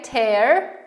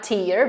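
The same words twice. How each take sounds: First: The vowel sounds like the one in 'air'. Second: The vowel sounds like the one in 'ear'. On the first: It means to rip something. The speaker calls it right. "tear, not tear" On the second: It means a drop from the eye. The speaker calls it wrong. "not tear"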